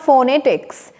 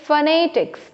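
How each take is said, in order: First: The first vowel is a full 'o' sound. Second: The first vowel is a short reduced sound. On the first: The speaker calls it wrong. "It's not फोनेटिक्स" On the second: The speaker calls it right. "It फोनेटिक्स"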